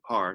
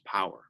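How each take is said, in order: First: The name is said as one short syllable. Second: The name is said with two syllables. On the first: This is how some people, including family, say it. "sometimes people pronounce my name Par" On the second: This is the form the speaker uses. "I believe the correct correct pronunciation is Power"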